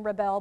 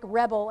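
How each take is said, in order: First: Rebel as rih-BEL, the verb; second-syllable stress. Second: Rebel as REB-ul, the noun; first-syllable stress. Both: Shown as a demonstration. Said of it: "we pronounce them differently".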